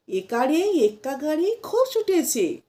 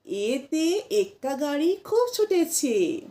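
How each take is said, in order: First: একারে said "ekare", the common wrong way; wrong pronunciation. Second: এতে said short as "ete"; corrected rhyme with a crisp এতে; correct pronunciation. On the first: Teacher shows learners the wrong version, chanted. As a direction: rhyme read with একারে as many say. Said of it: "অনেকে বলে থাকবেন". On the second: Teacher gives learners the right version, chanted. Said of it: "না". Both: Shown as a demonstration.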